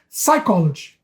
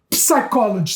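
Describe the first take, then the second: First: The initial P is silent. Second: The initial P is pronounced. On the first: The speaker calls it right. "você pronuncia psychology" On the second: The speaker calls it wrong. "você não fala psicólogo, psychology"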